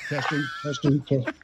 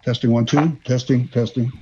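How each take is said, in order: First: Quiet megaphone mic check; megaphone turned down. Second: Mic check through a megaphone; testing the megaphone, spoken through it. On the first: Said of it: "I got the volume way down". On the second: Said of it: "I just hit the wrong button here". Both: Real, not acted.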